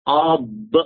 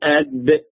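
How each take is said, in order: First: The consonant is a heavy emphatic d. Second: The consonant is a plain light d. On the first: The speaker calls it right. "هتقول أض أض" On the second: The speaker calls it wrong. "مش هتقول أد"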